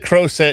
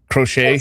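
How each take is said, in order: First: The word ends with a 'set' sound. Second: The word ends with a 'shay' sound. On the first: This is the mistaken way it was said. The speaker calls it wrong. "I said crowset instead of crochet" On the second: This is the usual way to say it. The speaker calls it right. "instead of crochet"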